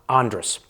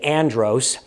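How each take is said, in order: First: The O vowel is almost dropped. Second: The second syllable has a clear O vowel. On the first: This is how Bahamians say it. "It's like the O isn't even there" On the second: This is how most Americans say it. "Most Americans say Andros"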